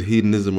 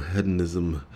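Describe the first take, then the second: First: Hedonism with a long "ee" in the first syllable; long-E pronunciation. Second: Hedonism with a short "eh" in the first syllable; short-E pronunciation. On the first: Host querying which hedonism is right, first with long "ee". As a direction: say hedonism as "HEE-don-ism". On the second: Host querying which hedonism is right, then with short "eh". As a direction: say hedonism as "HED-on-ism". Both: Shown as a demonstration. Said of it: "is it hedonism or hedonism".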